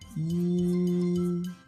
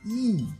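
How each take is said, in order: First: It is said with the first Mandarin tone. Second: It is said with the fourth Mandarin tone.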